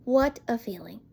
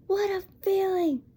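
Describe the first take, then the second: First: Said in the usual way. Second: A hint of forced cheer, pitched up; lightly voiced Stoic faking delight; mock fake enthusiasm. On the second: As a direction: imitate a dad faking being happy. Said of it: "it sounds like he's faking being happy".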